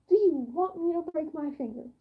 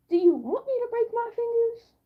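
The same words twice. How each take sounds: First: Said in the usual way. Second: High, louder mock outrage; indignant high retort. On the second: Answering his bad advice about flat hands, high and indignant. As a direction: throw the question back at him.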